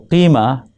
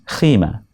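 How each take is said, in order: First: It begins with a deep back q sound. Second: It begins with a breathy kh sound. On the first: "qima with qa" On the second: "They pronounce it as kha"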